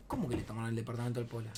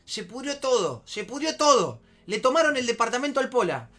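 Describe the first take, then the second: First: Low, quick, softer puzzled question; desconcierto contenido. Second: High, loud panicked report; alarma imitada. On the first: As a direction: ask back quietly, in disbelief. Él responde bajo y desconcertado. (pregunta baja y rápida, incrédula) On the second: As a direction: break bad news like the frantic friend. Ingeniero da la noticia alarmado. (imitando al amigo alarmado) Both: Retold or imitated.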